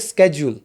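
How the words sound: It is said in an American accent. "आप USA में जाओगे वो बोलेंगे"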